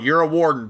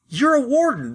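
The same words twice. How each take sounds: First: It is said in an unimpressed, dismissive tone. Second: It is said in a pleased, excited tone. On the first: The character does not care about wardens. "Instead of being like, oh, you're a warden. Big damn deal" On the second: The character is happy to meet a warden. "one of the few people in the game that goes, oh, wait, you're a warden. That's awesome"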